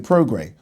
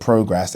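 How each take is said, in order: First: The name ends with a vowel sound. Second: The name ends with an s sound. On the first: The ring announcer said it this way. "I think I heard Michael Buffer today say Progray" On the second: Knowledgeable people say it this way. "I hear people that I think know their shit pronounce it Progress"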